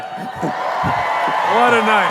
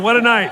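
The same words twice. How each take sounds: First: A drawn-out, stretched show-closing call; announcer flourish. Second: Said in the usual way. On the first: Acted. Host signing off the show to the crowd, big drawn-out announcer call. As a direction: close the night like a showman.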